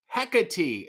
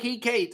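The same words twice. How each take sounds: First: Hecate as HEK-uh-tee, three syllables; corrected pronunciation. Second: He, Kate as two English words, HEE-KATE; misread pronunciation. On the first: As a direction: say Hecate with a short "heck" first, ending in "tee". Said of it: "my screen name is pronounced". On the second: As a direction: read he, Kate like the pronoun plus the name Kate. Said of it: "It really looks like". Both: Shown as a demonstration.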